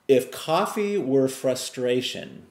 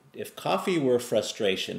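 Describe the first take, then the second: First: Slow and a bit higher, weighing each word; first take, slowed for weight; slow emphatic question. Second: Said in the usual way. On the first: Shown as a demonstration. Speaker poses the question to viewers, slow and emphatic.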